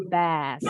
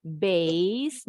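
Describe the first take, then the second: First: Bass with an open "a", no glide; no I sound. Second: Bass said like "base", drawn out; with an I glide. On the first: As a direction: keep the vowel of bass pure, as in "cat". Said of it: "nggak ada bunyi I-nya". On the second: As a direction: glide the vowel of bass into an I sound. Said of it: "kalau ini ada bunyi I". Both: Shown as a demonstration.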